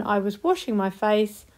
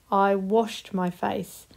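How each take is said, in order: First: Said in the usual way. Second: Slowed down, each word clear; slow, careful past tense. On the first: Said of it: "think of the ing one". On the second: Shown as a demonstration. Teacher modelling the past tense slowly. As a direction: say it slowly for the class. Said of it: "put them in two sentences".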